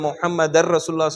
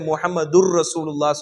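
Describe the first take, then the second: First: The first word ends with the sound 'dar'. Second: The first word ends with the sound 'dur'. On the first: The speaker calls it right. "முஹம்மதர் அப்படிதான் correct" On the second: The speaker calls it wrong. "நிறைய பேர் முஹம்மதுர் ரசூலுல்லாஹ் சொல்லுவாங்க"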